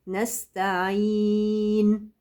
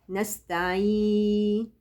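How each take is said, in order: First: The final n is held and clearly heard. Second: The final n fades out and is unclear. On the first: The speaker calls it right. "الحرف الاخير لازم يبان، لازم يتضح" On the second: The speaker calls it wrong. "رخ ومش باين مايع"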